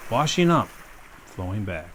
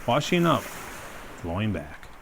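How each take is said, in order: Both takes have the same delivery.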